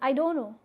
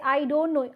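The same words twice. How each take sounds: First: The phrase is reduced and run together. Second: The phrase is pronounced fully and clearly.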